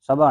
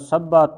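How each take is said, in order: First: The middle consonant is short and single. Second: The middle consonant is held long and doubled. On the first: The speaker calls it wrong. "ਇਸ ਨੂੰ ਸਭਾ ਨਹੀਂ ਬੋਲਣਾ" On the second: The speaker calls it right. "ਅਦਕ ਲਾ ਕੇ ਉਚਾਰਨ ਕਰਨਾ"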